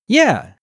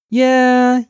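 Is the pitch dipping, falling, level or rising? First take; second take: falling; level. First: The pitch falls sharply from high to low. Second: The pitch stays high and level throughout.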